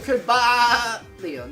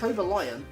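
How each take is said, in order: First: The middle sounds like a sheep's baa. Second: The name sounds like the words cobra lion. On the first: The speaker calls it wrong. "It's not a sheep, you don't go Cobalion" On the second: The speaker calls it right. "It's Cobra Lion"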